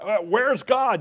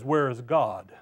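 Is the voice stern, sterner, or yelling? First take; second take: yelling; stern. First: It is yelled loudly. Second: It is said in a stern voice.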